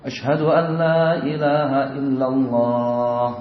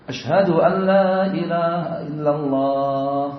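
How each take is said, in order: Both takes have the same delivery.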